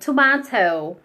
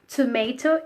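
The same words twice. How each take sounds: First: It is said in a British accent. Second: It is said in an American accent. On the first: "tomato is British English" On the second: "Tomato is American English"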